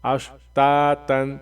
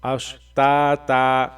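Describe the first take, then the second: First: اشتاتن said slowly, ending in a nasal -tan; tanween form. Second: اشتاتا said slowly, ending in an open long -ta; pause form. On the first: Teacher showing the form pupils read for now, اشتاتن. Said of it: "ابھی یوں پڑھیں". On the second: Teacher showing the stop form اشتاتا, slow and clear. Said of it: "جہاں بھی رکنا ہوتا ہے ... کیسے پڑھتے ہیں". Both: Shown as a demonstration.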